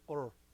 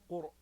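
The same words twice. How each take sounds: First: The r is light, like an American r. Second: The r is heavy and emphatic. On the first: The speaker calls it wrong. "don't say قر. It's not R. That's an American ra" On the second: The speaker calls it right. "فخم الراء"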